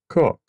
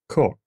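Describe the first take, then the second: First: The vowel has a British coloring. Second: The same.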